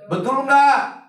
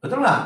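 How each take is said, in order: First: Louder, pressing the congregation for an answer; louder insistent call. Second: Said in the usual way. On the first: Real, not acted. Preacher pressing silent congregation for a reply, louder and insistent. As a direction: call it out to wake the room.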